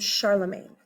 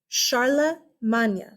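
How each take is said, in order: First: The name is pronounced the English way. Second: The name is pronounced the French way. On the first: "that's the British version of his name" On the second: "it's Old French"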